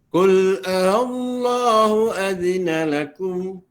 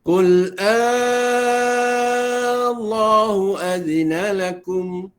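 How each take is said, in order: First: The vowel after qul is split into two softened sounds. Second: The vowel after qul is held as one long sound. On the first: "Kalau dibaca dengan tashil" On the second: "Kalau dibaca dengan ibdal"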